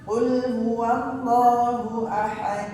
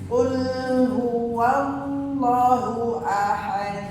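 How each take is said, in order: First: It is recited quickly with short vowel elongations. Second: It is recited slowly but elongations are clipped short. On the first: The speaker calls it right. "kalau misalnya pakai yang cepet" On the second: The speaker calls it wrong. "Jangan pakainya lambat, cepet mat dua harokatnya"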